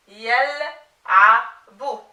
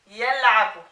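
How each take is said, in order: First: Yal'abu broken into slow, separate syllables; very slow, segmented "yal'abu" for a learner. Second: Said in the usual way. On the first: Shown as a demonstration. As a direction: sound out "yal'abu" piece by piece, drawn out. Teacher assembles word from spelled syllables.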